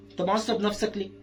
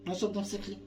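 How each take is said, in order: First: Said in the usual way. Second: Same question dropped to a soft murmur; hushed, gentle echo of the question; much softer repeat. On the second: Shown as a demonstration. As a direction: soften it right down to the toddler. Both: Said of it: "repeated much softer".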